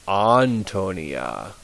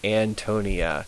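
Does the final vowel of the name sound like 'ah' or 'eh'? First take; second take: ah; eh. First: The final vowel sounds like 'ah'. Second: The final vowel sounds like 'eh'. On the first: The speaker calls it right. "it's always ah, it's never eh" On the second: The speaker calls it wrong. "They want to say"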